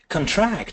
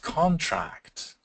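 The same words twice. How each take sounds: First: The stress is on the second syllable. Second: The stress is on the first syllable. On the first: It names an action of tightening. "contract is a verb" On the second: It names an agreement. "so so different from the word contract, like contract of sale"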